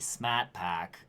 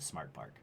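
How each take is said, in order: First: It is said in a thick Boston accent. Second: It is said in a standard American accent.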